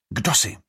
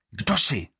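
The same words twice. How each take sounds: First: Growl. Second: Menacing. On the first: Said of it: "zavrčí". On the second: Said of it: "výhružně pozvedne hůl". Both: A narrator's reading.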